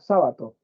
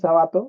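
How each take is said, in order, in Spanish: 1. El acento está en la primera sílaba. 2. El acento está en la segunda sílaba. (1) "se debería llevar tilde porque sería esdrújula" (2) "algunos dicen Sabato y ahí parece que dijera Jabato"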